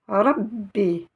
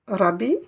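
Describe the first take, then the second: First: The b sound is doubled and held longer. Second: The b sound is short, not held. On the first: The speaker calls it right. "Vous avez une shidda" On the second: The speaker calls it wrong. "Rabbi? Non"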